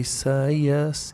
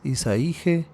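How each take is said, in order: First: The name ends with an 'ías' sound. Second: The name ends with an 'íje' sound. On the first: The name ends with the short form of Yahweh. The speaker calls it right. "en lugar de Isaías" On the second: The name would end with the short form of Jehovah. The speaker calls it wrong. "sus nombres serían"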